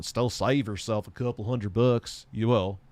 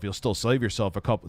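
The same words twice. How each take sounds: First: Accidental slight Southern accent. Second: Said in the usual way. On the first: Real, not acted. Streamer advising on building a PC, slight Southern accent. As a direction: let a hint of a Southern accent slip in. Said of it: "I sound like I had a Southern accent with that". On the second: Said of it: "I sound like I had a Southern accent".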